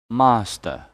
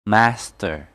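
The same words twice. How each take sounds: First: "master" the British way, long "ah", no R; British pronunciation. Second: "Master" with flat "a" as in cat, R ending; American pronunciation. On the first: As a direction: say "master" as British "MAH-stuh". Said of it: "R in British". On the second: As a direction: say "Master" as American "MASS-ter". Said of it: "in American English". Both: Shown as a demonstration.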